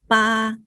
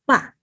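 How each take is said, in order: First: The pitch stays high and level. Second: The pitch falls sharply from high to low. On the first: "first tone is flat tone" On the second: "Fourth tone go down, falling"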